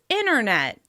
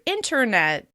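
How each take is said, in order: First: The T drops, so it starts like inner. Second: The T after the N is clearly pronounced.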